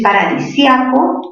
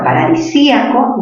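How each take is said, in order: First: Paradisíaco with sia as one stressed syllable; diphthong ia. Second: Paradisíaco with stressed í split from the a. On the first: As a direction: say paradisíaco as pa-ra-di-SYA-co. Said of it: "es palabra grave". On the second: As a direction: break paradisíaco as pa-ra-di-SÍ-a-co. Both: Shown as a demonstration.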